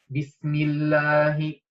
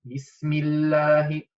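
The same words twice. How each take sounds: The two takes are said the same way.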